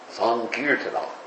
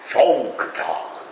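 First: The word begins with an s sound. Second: The word begins with an sh sound. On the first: This is the strict Sanskrit way of saying it. "Strictly speaking in Sanskrit, it's Sankirtana" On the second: This is the Bengali way of saying it. "in Bengali you pronounce the S's like that with an SH"

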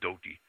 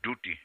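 First: The first vowel is an 'oh' sound. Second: The first vowel is an 'oo' sound. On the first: This is the form used today. "The pronunciation is slightly different now" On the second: This is the older form found in the scriptures. "the word is used with the U"

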